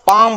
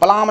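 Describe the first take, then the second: First: The word is said without an L sound. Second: The word is said with an L sound. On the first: The speaker calls it right. "इसको पाम बोलेंगे" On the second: The speaker calls it wrong. "पलाम नहीं बोलेंगे"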